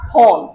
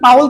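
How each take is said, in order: First: The vowel is a single long 'aw' sound. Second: The vowel glides like 'ow' before the l. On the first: The speaker calls it right. "উচ্চারণ হচ্ছে Paul" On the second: The speaker calls it wrong. "অনেকে বলে পাউল বলে, কিন্তু পাউল কিন্তু উচ্চারণ না"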